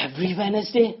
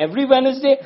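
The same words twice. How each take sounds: First: A slightly higher, puzzled question; mild disbelief. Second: High, loud, outraged question; indignant disbelief. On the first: Worker at the back questioning the deal, mildly incredulous. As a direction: ask it with a hint of complaint. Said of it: "spoke up from the back and said". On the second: Workers objecting to one working day, loud and indignant. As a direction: sound scandalised at working even once a week. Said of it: "They said". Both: Retold or imitated.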